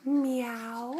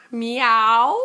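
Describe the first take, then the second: First: Quiet little cat meow; soft meow. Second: Laughing cat meow, a bit louder; playful meow. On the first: A parent meowing softly to the toddler. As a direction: meow it softly, almost to yourself. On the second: A parent meowing for the toddler, laughing. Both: Pretend.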